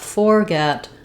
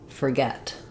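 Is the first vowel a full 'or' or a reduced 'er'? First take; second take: full or; reduced er. First: The first syllable has a full 'or' vowel. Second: The first syllable has a reduced 'er' vowel. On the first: The speaker calls it wrong. "Not forget" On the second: The speaker calls it right. "It gets reduced from or just to er"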